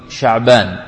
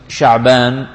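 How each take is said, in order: The two takes are said the same way.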